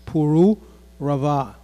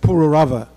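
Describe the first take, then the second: First: Some of the vowels are held long. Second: All the vowels are kept short, anglicized. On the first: The speaker calls it right. "there are some diacritics there, so it's Pururava" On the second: The speaker calls it wrong. "we grew up in this country saying Pururava, but that's not the right pronunciation"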